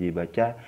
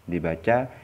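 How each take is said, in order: Both takes have the same delivery.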